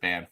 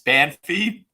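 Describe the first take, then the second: First: The name ends on the f consonant. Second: The name ends with an ee vowel. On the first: "a lot of people pronounce it Banff" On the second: "It's Banffy"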